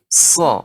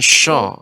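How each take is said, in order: First: The syllable begins with an s sound, no sh. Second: The syllable begins with an sh sound. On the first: The speaker calls it right. "tapi sha" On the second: The speaker calls it wrong. "bukan sya"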